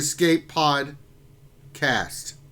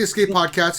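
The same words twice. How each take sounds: First: The name is said with a pause inside it. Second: The name is said without any inner pause. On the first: The speaker calls it right. "The pause is important" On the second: The speaker calls it wrong. "It's not the Escape Podcast"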